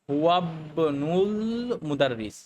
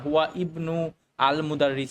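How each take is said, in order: First: The words are run together without the glottal stops. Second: The words are separate, each glottal stop pronounced. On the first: The speaker calls it right. "আমরা বলি ... এই হামজারা কিন্তু স্কিপ করে গেছি" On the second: The speaker calls it wrong. "আমরা কিন্তু এভাবে বলি না"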